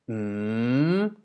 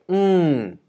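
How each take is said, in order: First: The pitch dips and then rises upward. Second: The pitch starts high and falls steeply. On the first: "a rising tone, which goes like mm" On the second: "the falling tone, which is falling"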